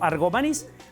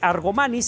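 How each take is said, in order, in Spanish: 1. La sílaba acentuada es la última. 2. La sílaba acentuada es la penúltima. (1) "sino Argomanís" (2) "no se dice Argomanis"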